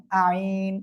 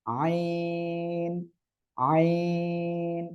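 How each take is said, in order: First: আইন said short and plain like the everyday word, no throat press; wrong pronunciation. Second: আইন drawn out slowly from a pressed throat; correct throat-pressed ain. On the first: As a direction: clip আইন like the word for law. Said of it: "এটা বললে কিন্তু একেবারে ভুল হয়ে যাবে". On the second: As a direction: squeeze the throat and hold আইন long. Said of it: "গলাটা চেপে আপনি উচ্চারণ করবেন". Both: Shown as a demonstration.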